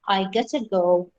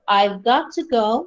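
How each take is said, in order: First: The words got to are reduced to gotta. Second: The words got to are said in full.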